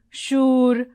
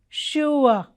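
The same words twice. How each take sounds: First: The vowel is a single sound without a glide. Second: The vowel glides as an oo-type diphthong. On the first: The speaker calls it wrong. "people saying sure, poor, and all that, which is wrong" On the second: The speaker calls it right. "what is the right pronunciation of these words? It is sure"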